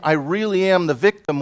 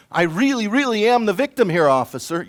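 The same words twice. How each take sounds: First: Said in the usual way. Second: I really, really AM the victim here, with am pressed hard and held; stress on am. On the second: Shown as a demonstration. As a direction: lean on "am" to sound wronged. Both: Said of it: "without saying".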